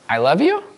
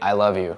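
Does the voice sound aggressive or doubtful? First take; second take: doubtful; aggressive. First: It sounds uncertain and questioning. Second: It sounds forceful, with the pitch dropping. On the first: The speaker doubts the other person's love. "I don't know if you really do love me" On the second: The speaker is being threatening and dismissive. "their tone drops"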